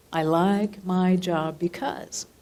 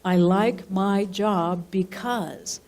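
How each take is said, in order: First: Slow and deliberate, rising at the end on "because"; dictating again, tune lifting at the end; slow dictation, rising. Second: Slow and deliberate, falling at the end on "because"; dictating a line to write down; slow dictation. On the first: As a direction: repeat "I like my job because" slowly with a lift at the end. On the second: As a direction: spell out "I like my job because" slowly, letting it fall. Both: Shown as a demonstration. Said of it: "jot on the very top".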